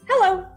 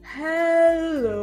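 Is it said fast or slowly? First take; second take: fast; slowly. First: It is said fast. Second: It is said slowly.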